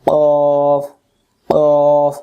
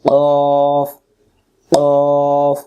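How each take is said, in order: Both takes have the same delivery.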